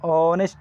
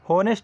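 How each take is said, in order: First: The word begins with a vowel sound. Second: The word begins with an h sound. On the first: The speaker calls it right. "ಎಚ್ silent ಆಗಿ ಆನೆಸ್ಟ್ ಅಂತ" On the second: The speaker calls it wrong. "ಹೋನೆಸ್ಟ್ ಅಂತ ಓದಲ್ಲ"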